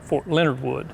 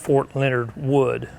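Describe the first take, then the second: First: Leonard and Wood run together as one word. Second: Leonard and Wood are said as separate words. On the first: This is how locals say it. "the folks around uh, Missouri and then that area actually pronounce it like" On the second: This matches the general's actual name. "Instead of"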